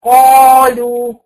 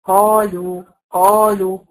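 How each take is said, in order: First: قالوا shouted, slow, with an exaggerated, heavy, closed qaf; mock the wrong قالوا, too thick and loud; قالوا blown up loud and heavy as the mistake; overdone heavy qaf. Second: قالوا with a heavy but open qaf, not overdone; قالوا moderately heavy and easy; correct qaf. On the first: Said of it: "ما أجيش أقول إيه". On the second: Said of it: "هفتح بقيت لساني". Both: Shown as a demonstration.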